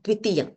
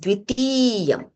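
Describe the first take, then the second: First: The middle vowel is said short. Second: The middle vowel is said long. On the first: The speaker calls it wrong. "it is not dvitiyam" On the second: The speaker calls it right.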